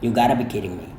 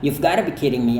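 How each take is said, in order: First: The 've sound is dropped after you. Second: The 've sound is pronounced after you. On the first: "Anda juga bisa hanya katakan" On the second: "bisa tetap dilafalkan"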